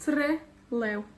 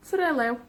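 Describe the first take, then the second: First: Trelew split, TRE, pause, LEW; stress on both parts. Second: Trelew joined up, both halves weighted; TRE-LEW as one word; stress on both syllables. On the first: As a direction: separate both halves of Trelew, stressing each. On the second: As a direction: run TRE and LEW together with even stress. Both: Shown as a demonstration. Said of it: "tenemos la énfasis en las dos".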